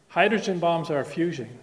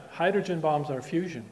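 Both takes have the same delivery.

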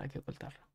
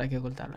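First: Whispered to himself; whispering. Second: Said in the usual way. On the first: Real, not acted. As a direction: whisper it under the breath. Repeats the phrase quieter each time.

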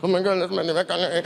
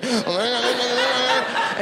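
First: Mild starstruck babble under his breath; freaking out. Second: Higher, garbled starstruck gibberish; freaking out harder. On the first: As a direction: rush it out like a panicking fan. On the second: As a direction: babble until the words melt together. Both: Retold or imitated. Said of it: "I start freaking out".

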